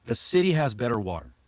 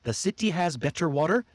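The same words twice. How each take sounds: First: CITY, BETTER, WATER with D-like Ts, quick and falling; smooth flap T. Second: CITY, BETTER, WATER with crisp Ts, higher, rising; careful hard T in city, better and water, questioning. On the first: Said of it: "See how smooth that". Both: Shown as a demonstration.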